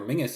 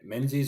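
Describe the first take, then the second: First: The surname is said in its traditional form. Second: The surname is said the way it is spelled. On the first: The speaker calls it right. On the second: The speaker calls it wrong.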